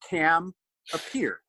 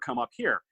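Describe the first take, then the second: First: It is said in a heavy French accent. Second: It is said in a plain English accent.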